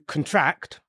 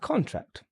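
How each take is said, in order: First: The stress is on the second syllable. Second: The stress is on the first syllable. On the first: It is a verb meaning to get smaller. "But the verb form is very different" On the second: It is a noun meaning a legal document. "That's the noun because of the stress"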